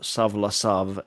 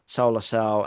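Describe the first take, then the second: First: The 'au' is said as 'av' with a v-sound. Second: The 'au' is said as an 'ow' vowel glide. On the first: This is the later vernacular pronunciation. "in later pronunciation" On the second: This is the reconstructed ancient pronunciation. "Erasmian reconstructed pronunciation"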